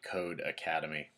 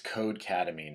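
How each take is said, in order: First: The name is said as two separate words. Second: The name runs together as one blended word. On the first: The speaker calls it wrong. "not Code Academy" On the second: The speaker calls it right. "It's Codecademy"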